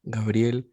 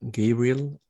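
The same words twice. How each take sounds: First: The name is pronounced the Spanish way. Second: The name is pronounced the English way. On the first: "the pronunciation in Spanish, which is Gabriel" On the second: "my name in, in English is like Gabriel"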